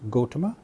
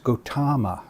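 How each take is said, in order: First: The vowel is said short. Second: A vowel is said long. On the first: The speaker calls it right. "The correct pronunciation is Gotama" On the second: The speaker calls it wrong. "a short vowel mispronounced uh, as a long vowel"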